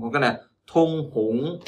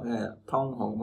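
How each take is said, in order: First: Thông hống with a rising tone on thông; thông rising, fuller; second tone version. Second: Thông hống with a falling, soft tone on thông; thông falling, quiet; first tone version. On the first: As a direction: lift the pitch up through thông in thông hống. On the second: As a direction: drop the pitch on thông in thông hống. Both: Shown as a demonstration. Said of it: "Khác nhau".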